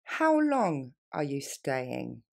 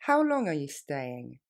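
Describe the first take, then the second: First: How long are you staying stretched out, lower and slow; very slowly. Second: Brisk natural speed; faster. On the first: Teacher modelling for students, very slow. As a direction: drag each word for the learner. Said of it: "Encore une fois plus lentement". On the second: Teacher modelling for students, quick natural. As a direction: say it quickly, like a native. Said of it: "Plus rapidement". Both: Shown as a demonstration.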